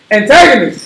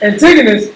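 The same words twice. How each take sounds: First: Antigonus with a long A in the second syllable; misread name. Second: Antigonus with a short i, "an-TIG-uh-nus"; corrected pronunciation. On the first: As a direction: say Antigonus like "an-TAG-onus". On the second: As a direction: say Antigonus with TIG as the second syllable. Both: Real, not acted.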